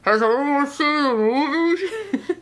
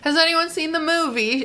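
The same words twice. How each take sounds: First: It is said in a muffled put-on voice. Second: It is said in a British-like put-on voice.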